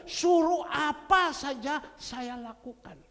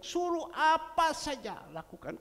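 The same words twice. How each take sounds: First: Louder, slow, every word weighted on "Suruh apa saja saya lakukan"; emphatic slow vow. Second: Said in the usual way. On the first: Retold or imitated. The preacher insisting the man himself made the vow, said slow and loud. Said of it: "Kan dia yang ngomong". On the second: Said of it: "dia bilang".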